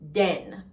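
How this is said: The word begins with a 'd' sound. "becomes D"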